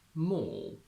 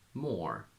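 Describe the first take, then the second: First: It is said in a British accent. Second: It is said in an American accent. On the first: "English second" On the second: "In American first"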